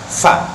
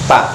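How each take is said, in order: First: The syllable starts with an f sound. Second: The syllable starts with a p sound. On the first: The speaker calls it right. "yang pas itu bukan pak tapi fa" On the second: The speaker calls it wrong. "orang Sunda kalau fa itu jadi pak"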